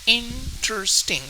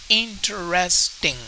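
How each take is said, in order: First: The word is said with three syllables. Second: The word is said with four syllables. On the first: "Now we could say it with three syllables" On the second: "or we could also say it with four syllables"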